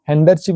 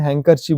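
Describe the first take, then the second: First: A d sound is pronounced in the word. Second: No d sound is pronounced in the word. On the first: The speaker calls it wrong. "हैंडरचीफ नहीं बोलते" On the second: The speaker calls it right. "हैंकरचीफ बोलते हैं उसको"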